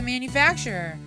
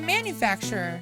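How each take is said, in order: First: The stress falls on the normal syllable. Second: The stress falls on an unusual syllable. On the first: The speaker calls it right. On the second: The speaker calls it wrong.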